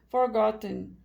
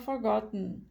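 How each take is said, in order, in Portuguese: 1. O T do meio é totalmente liberado. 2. O T do meio é um stop glotal. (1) "Dificilmente nos Estados Unidos da América você vai ouvir" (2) "Normalmente eles vão falar forgotten, que que é com o stop de T"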